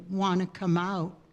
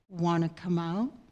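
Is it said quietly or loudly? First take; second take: loudly; a bit louder. First: It is said loudly. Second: It is said a little louder.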